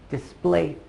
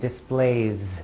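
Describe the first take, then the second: First: The word ends with a hissing S sound. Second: The word ends with a buzzing Z sound. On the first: The speaker calls it wrong. "it ends with an S, but you don't say displays" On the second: The speaker calls it right. "You say displays. ... make a Z sound instead"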